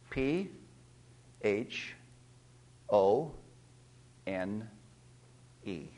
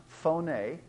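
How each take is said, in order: First: P, H, O, N, E, each letter said alone with a pause; spelled out letter by letter. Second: "phone" said whole, like foʊn; pronounced as one word. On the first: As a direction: spell "P H O N E" one slow letter at a time. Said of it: "I'm gonna spell it out to you". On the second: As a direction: say "phone" as a single word after the spelling. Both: Shown as a demonstration.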